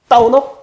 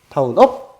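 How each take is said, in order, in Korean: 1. 첫 번째 부분에 강한 강세가 있어요. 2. 두 번째 부분에 강한 강세가 있어요. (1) "꿍 하면서 다운에 임팩트를 주세요" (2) "업에 포인트를 줘야 되니까"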